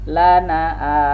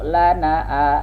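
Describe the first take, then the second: The two takes are said the same way.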